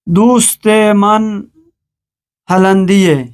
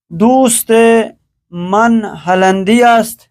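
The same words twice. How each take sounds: First: است shrunk to -e in هلندیه; spoken Persian form. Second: Full است after هلندی; formal ending, هلندی است with st sounded; written Persian form. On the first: Teacher reads the spoken sentence, هلندیه ending -ye. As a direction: say هلندیه as holandi-ye, no st. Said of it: "ہے کے ساتھ تلفظ کیا جاتا ہے". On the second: Teacher reads the written sentence, هلندی است in full. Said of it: "فارسی گفتاری است". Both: Shown as a demonstration.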